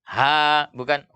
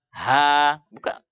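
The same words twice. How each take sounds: The two takes are said the same way.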